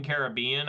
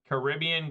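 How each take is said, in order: First: "Caribbean" said KARE-uh-BEE-un, rising at the end; "Caribbean" with an open KARE start, stress on BEE. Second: "Caribbean" with stress on RIB, kuh-RIB-ee-un; "Caribbean" as kuh-RIB-ee-un, not KARE-uh-bee-un. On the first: Streamer trying the other Caribbean, kare-uh-BEE-un. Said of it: "I don't say Caribbean". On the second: Streamer showing how he says Caribbean, kuh-RIB-ee-un. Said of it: "I always say Caribbean". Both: Shown as a demonstration.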